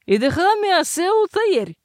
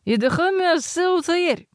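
First: Irritated. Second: Mumbled into a mug. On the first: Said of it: "прогудела кружка чуть более раздражённо". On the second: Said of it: "пробулькал в кружку с вином". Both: A narrator's reading.

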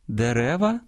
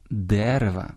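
First: "дерева" stressed on the middle syllable, дерЕва; stress on second syllable. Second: "дерева" stressed on the first syllable, дЕрева. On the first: Host showing the plural, "дерева" with middle-syllable stress. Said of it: "у множині змінюють наголос". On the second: Host showing stress after numerals, "дерева" with first-syllable stress. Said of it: "зберігають наголос однини". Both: Shown as a demonstration.

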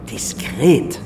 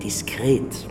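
First: Diskret said again, firmly and louder; louder repeat. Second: Whispered. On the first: Billionaire on the phone repeats Diskret firmly and louder. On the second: Billionaire on the phone stresses discretion, whispering Diskret. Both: Acted.

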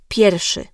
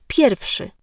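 First: "pierwszy" said as "pierszy", without the w; swallowed W. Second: "pierwszy" with the w sounded before sz; full W. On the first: Diction coach demonstrating simplification, w left out of "pierwszy". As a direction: drop the middle w sound in "pierwszy". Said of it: "Często zjadamy W i mówimy". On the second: Diction coach showing the careful form, w pronounced in "pierwszy". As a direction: articulate every consonant of "pierwszy", slowly. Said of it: "zamiast pierwszy". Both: Shown as a demonstration.

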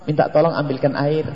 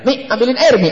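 First: Polite, low-key asking; gentle request. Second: Higher-pitched, quick order to mum; blunt child's demand. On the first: Husband asking wife to fetch water, gently. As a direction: ask softly and courteously for help. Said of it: "Lihat dengan bahasa lembut". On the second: Child ordering mother to fetch water, blunt and high. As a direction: imitate a child demanding a drink. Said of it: "anaknya bilang". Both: Acted.

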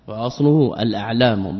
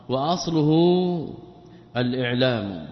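First: الأعلام said "al-a'lam", hamza with short a; fatha on the hamza. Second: الإعلام said "al-i'lam", hamza with short i; kasra on the hamza. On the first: Teacher correcting the reading, الأعلام with fatha. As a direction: start أعلام on an a after the article. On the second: Teacher reading the word before correcting it, الإعلام with kasra. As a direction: start إعلام on an i after the article. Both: Shown as a demonstration. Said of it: "به بالفتح".

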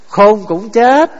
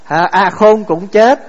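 First: Chanted, slow, deliberate rising stress on "chết"; chanted, spell out "Khôn cũng chết" slowly, leaning on "chết"; drawn-out teaching chant. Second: Slow, lingering rise on "chết"; slow repeated refrain. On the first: Chanted, monk leading listeners through a saying, slow and deliberate. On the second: Monk repeating the saying to the assembly, slow and deliberate. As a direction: draw out "khôn cũng chết" with a lifted "chết". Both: Shown as a demonstration. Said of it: "Pháp Hòa thường nói quý vị làm sao?".

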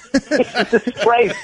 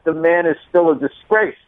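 First: He's a disgrace, slow and laughing; slow laughing repeat. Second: Said in the usual way. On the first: Real, not acted. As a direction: drag it out through a laugh. Repeats punchline slower.

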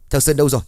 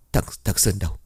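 First: Louder, higher repeat of the question; urgent shout. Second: A choked, halting question; hurried stammer. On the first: Sỏi shouts at the youths for his son, urgent and loud. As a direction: burst out, demanding an answer. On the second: Sỏi asks the youths where his son is, halting and hushed. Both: A narrator's reading. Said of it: "gấp gáp hỏi".

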